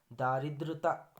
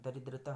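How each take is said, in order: First: दारिद्रता with long 'aa' in first syllable, louder; wrong form. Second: दरिद्रता with short first vowel; correct form. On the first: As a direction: stretch the first vowel of दारिद्रता: 'daa-ri-'. (दारिद्रता, पहला 'दा' लंबा) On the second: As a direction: say दरिद्रता starting with a short 'da'. (दरिद्रता, पहला 'द' छोटा) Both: Shown as a demonstration. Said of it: "गलत है".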